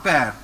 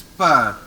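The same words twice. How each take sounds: First: "pear" said with an open "air" vowel, the wrong way; "pear" with an open vowel, the sound to avoid. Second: "pear" said with a rounded "eu" vowel, lips pushed forward; "pear" with a short rounded "eu" vowel; correct French peur. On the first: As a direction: show the mistake: "pear" like "pair". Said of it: "No, not pear". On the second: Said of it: "It is pear". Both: Shown as a demonstration.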